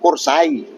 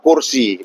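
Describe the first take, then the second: First: The word ends in an ai diphthong. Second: The word ends in a plain i vowel. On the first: This is the Osing dialect form. "Bahasa Osing kursai" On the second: This is the standard Javanese form. "kalau bahasa Jawa kursi"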